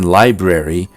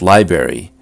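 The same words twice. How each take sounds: First: The first R sound is clearly pronounced. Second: The first R sound is left out.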